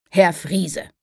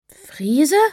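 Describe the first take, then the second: First: Said in the usual way. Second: Puzzled question. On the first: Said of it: "Er schmunzelte". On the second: Acted. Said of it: "Jana war verwirrt".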